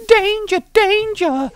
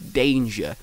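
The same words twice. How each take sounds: First: "Danger" squeaked much higher and louder; squeaky danger. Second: Said in the usual way. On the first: Shown as a demonstration. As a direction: yelp "danger" in a squeaky high voice. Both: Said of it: "Danger, danger to it".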